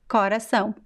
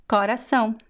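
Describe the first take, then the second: No difference in how they are said.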